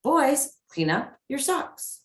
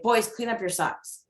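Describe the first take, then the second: First: Put-on "Boys" pitched high, "socks" lifting at the end; light respectful tone. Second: Put-on even, level "Boys, clean up your socks" with a falling end; plain order with no lift at the end; flat command. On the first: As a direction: ask it lightly, voice going up. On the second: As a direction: mom giving the sock order as a flat demand. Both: Shown as a demonstration.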